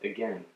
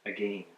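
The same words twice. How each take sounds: First: It is said with the American pronunciation. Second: It is said with the Canadian pronunciation. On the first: "my American friends have sometimes said that they say" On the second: "and I say"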